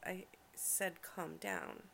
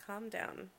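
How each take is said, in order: First: CALM DOWN slowed right down and measured; firm repetition. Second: Said in the usual way. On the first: Acted. Girlfriend repeats herself to worked-up partner, CALM DOWN slow and firm. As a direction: stretch out "calm down" firmly.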